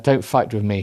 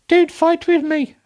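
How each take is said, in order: First: It is read in the reader's plain voice. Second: It is read in a put-on character voice.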